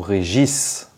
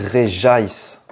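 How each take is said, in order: First: The name ends without an English 'ice' sound. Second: The name ends with an English 'ice' sound. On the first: The speaker calls it wrong. "Est-ce qu'on dit Réjaïs ou Régis?" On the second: The speaker calls it right. "on dit Réjaïs. ... et ice, la glace en anglais"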